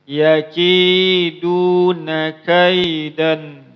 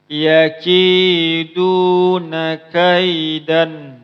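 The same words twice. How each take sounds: Both takes have the same delivery.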